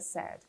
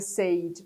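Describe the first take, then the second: First: The vowel sounds like the one in 'bed'. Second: The vowel sounds like the one in 'say'. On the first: The speaker calls it right. "na verdade a pronúncia correta é said" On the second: The speaker calls it wrong. "Costumam dizer said"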